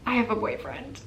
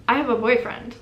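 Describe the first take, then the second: First: Unsure. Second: Firm, assertive reply; more confident. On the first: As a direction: say it timidly, after a pause. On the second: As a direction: say it louder and surer. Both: Retold or imitated. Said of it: "more confidently that time".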